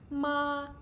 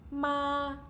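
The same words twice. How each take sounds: First: The pitch stays high and level. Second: The same.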